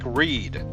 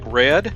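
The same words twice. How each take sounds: First: The vowel is long, rhyming with bead. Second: The vowel is short, rhyming with bed. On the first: The receipt concerns reading the message. "in the present tense, so it sounds like read" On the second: The receipt says the message was read. "in the past tense, so it sounds like read"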